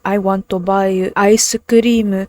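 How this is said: It is said in a Japanese katakana accent.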